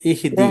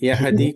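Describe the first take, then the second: First: The word begins with an 'ee' sound. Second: The word begins with a 'ya' sound. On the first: The speaker calls it right. "యా కాదు ఈ రావాలి" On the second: The speaker calls it wrong. "యహది యహది కరెక్ట్ కాదు"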